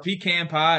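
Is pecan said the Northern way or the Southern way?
Southern. Pecan is said the Southern way. "as I say it"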